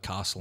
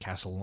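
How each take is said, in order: First: The A vowel is soft and long. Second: The A vowel is flat and short.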